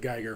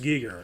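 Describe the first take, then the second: First: The name sounds like 'Geiger counter'. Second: The name does not sound like 'Geiger counter'. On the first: The speaker calls it wrong. "I pronounced it Geiger for a long time" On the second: The speaker calls it right. "I'm pretty sure it's Giger"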